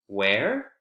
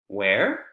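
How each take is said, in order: The two takes are said the same way.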